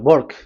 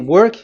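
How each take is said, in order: First: The word starts with a B-like sound. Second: The word starts with a plain W sound. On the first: "W is pronounced as B" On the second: "So if you say work"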